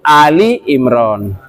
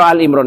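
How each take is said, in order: First: The first part is said as 'Ali'. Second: The first part is said as short 'Al'. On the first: The speaker calls it right. "yang betul itu Ali Imran" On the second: The speaker calls it wrong. "Salah kalau Al-Imran"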